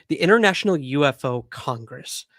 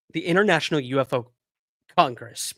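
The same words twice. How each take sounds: First: Said in the usual way. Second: Speaking through hiccups; words broken by a hiccup. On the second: Real, not acted. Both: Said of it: "hiccuping like crazy".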